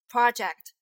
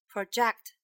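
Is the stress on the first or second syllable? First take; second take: first; second. First: The stress is on the first syllable. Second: The stress is on the second syllable. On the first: It is a noun. "Project 就是个名词" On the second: It is a verb. "project 就是一个动词"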